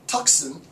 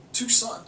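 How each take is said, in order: First: "Tucson" said TUCK-sun, with a hard k; first syllable of "Tucson" rhymes with "luck"; mispronounced Tucson. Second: "Tucson" said too-SAHN, silent c; "Tucson" with no k sound, ending in sahn; corrected Tucson pronunciation. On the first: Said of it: "he can't pronounce Tucson". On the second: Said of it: "it's probably Tucson". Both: Real, not acted.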